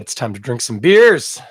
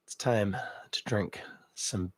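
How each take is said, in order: First: Said in the usual way. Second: Hushed unvoiced whisper. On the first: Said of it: "It's time to drink some beers on the Toronto Beer". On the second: Shown as a demonstration. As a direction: whisper it like a secret.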